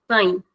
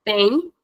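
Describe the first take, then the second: First: Tem, vowel shortened and closed; closed short vowel. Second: Said in the usual way. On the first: Shown as a demonstration. Teacher showing the difference, closed tem. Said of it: "This is the difference". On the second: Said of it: "it's the normal sound".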